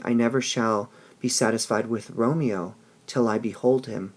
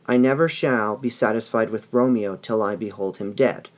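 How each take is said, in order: First: "till I behold him" with "till" leaned on and a lifted, open end, cut off from what follows; longing reading. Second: "I never shall be satisfied" with "never" pushed hard, and "him dead" said together as one thought; reading as a death wish. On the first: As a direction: stress on "till", a rise on "him," then a pause before "dead". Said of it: "until I can hold him". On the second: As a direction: stress on "never", the phrase "behold him dead" run straight through to the end. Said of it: "that she won't be satisfied with Romeo until he's killed".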